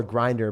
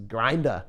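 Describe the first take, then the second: First: Said in the usual way. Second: Boston "grinda", dropping the final R; New England R-less "grinda"; Boston accent. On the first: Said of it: "many Bostonians, New Englander". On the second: Shown as a demonstration. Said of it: "New Englander is a sub or a grinder pres".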